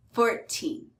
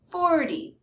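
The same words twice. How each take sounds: First: Put-on "fourteen" with long, stressed "teen". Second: "forty" high on "for", weak "ty"; stress on FOR. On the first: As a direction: lean on the end of "fourteen". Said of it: "the stress is on the teen". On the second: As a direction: punch the start of "forty". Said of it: "stress is on the first syllable". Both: Shown as a demonstration.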